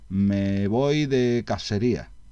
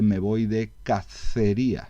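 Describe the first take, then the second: First: The c in cacería sounds like s. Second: The c in cacería sounds like th. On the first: The speaker uses a southern seseo pronunciation. "pronunciar el sonido S y el sonido C siempre como S, a eso le llamamos seseo" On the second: The speaker uses the standard distinguishing pronunciation. "en vez de"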